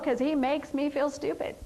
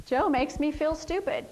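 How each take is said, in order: First: "he" lifted and leaned on as the one to blame; blaming emphasis on "he"; stress on he. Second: "Joe" lifted and leaned on, then falling; blaming emphasis on "Joe"; stress on Joe. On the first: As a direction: hit "he" in 'Cause he makes me feel stupid. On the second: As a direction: put the weight on "Joe" as the one to blame. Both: Shown as a demonstration. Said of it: "see how we're blaming Joe".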